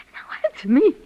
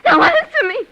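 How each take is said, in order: First: Said in the usual way. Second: Much higher, louder outcry; shrill demand. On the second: Acted. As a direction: scream the demand at him. Demands an answer twice.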